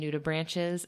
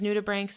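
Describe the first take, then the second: First: The last part is said with a ch sound. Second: The last part is said with a k sound. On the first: The speaker calls it wrong. "we had called them nudibranches" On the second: The speaker calls it right. "I heard someone refer to them as nudibranchs"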